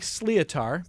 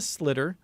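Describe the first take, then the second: First: It is read straight from its letters. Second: It sounds like 'slitter', with a short vowel. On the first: The speaker calls it wrong. "It looks like Sleatar" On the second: The speaker calls it right. "but it's a slitter"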